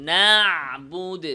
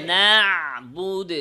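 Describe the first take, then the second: No difference in how they are said.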